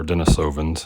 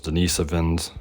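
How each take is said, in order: First: Denisovans with a long "so" as in "soap"; den-ih-SOH-vins, stress on the third syllable; alternative pronunciation. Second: Denisovans with "nis" as a short, quick "niss"; duh-NISS-uh-vins, stress on the second syllable; first pronunciation variant. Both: Shown as a demonstration. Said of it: "however you like to pronounce it".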